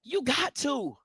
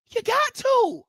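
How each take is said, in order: First: Said in the usual way. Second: "You got to" pushed up high, insistent; high-pitched emphatic repeat. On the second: Real, not acted. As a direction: leap way up on "got" to drive it home. Repeats phrase, second take pitched up.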